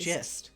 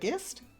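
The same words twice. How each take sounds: First: The word starts with a soft J sound. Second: The word starts with a hard G sound. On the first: The speaker calls it right. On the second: The speaker calls it wrong.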